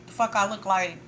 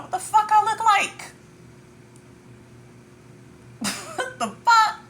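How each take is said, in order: First: Said in the usual way. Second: Much higher and louder, squealing disbelief; laughing high-pitched outrage; incredulous squeal. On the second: Real, not acted. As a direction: shriek it like it's absurd. Mock outrage at competing.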